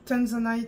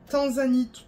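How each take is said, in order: First: The word is pronounced the English way. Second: The word is pronounced the French way.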